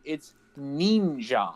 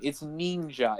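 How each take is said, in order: First: "ninja" drawn out slowly as nin-zhah, low. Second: Ninja with a soft zh, nin-zha; ninja said her way. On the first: Mock lesson to hosts, "ninja" slow and low. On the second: Mocking her pronunciation, ninja said as nin-zha. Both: Shown as a demonstration. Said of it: "let's try to say this the right way".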